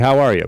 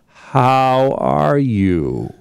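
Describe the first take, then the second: First: It is asked casually, as a routine greeting. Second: It is asked with concern, loaded with meaning.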